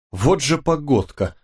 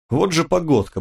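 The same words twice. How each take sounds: First: Slow, higher-pitched drawl; drawn out. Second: Higher-pitched grumbling remark, not hushed; muttered grumble. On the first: Driver remarking on the weather once more, drawn out. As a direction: stretch the grumble out slowly. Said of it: "снова протянул водитель". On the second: Driver to his passenger about the storm, muttered grumble. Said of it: "бормотал водитель". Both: A narrator's reading.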